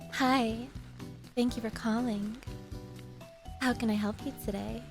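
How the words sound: It is said in a suggestive, flirtatious tone.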